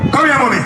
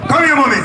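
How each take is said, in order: Both takes have the same delivery.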